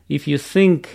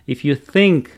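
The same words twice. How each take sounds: First: The word begins with an s-like sound. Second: The word begins with a th sound. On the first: It means if you sink. The speaker calls it wrong. "неправильно" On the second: It means if you think. The speaker calls it right. "правильно"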